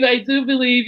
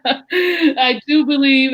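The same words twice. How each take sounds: First: Said in the usual way. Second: "do" drawn out slowly and leaned on; slow, insistent "I do believe"; stress on do. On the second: Real, not acted.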